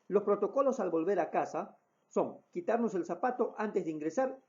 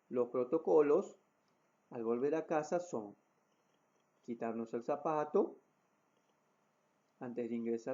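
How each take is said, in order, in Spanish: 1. Se habla a un ritmo rápido. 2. Se habla a un ritmo lento. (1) "Con un ritmo de, de voz mucho más rápido" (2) "el ritmo de voz pausado"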